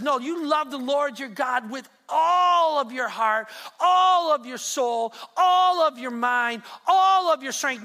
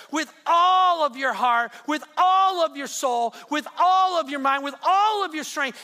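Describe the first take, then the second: First: Each all stressed, slow and loud; slow emphatic commandment. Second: Shouting each all, slow and loud; shouted commandment. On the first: Preacher quoting Jesus to the church, slow and stressed. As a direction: lean hard on every all, slowly. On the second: Preacher repeating the commandment to the church, shouting. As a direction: proclaim every all at full voice. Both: Acted. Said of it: "He says".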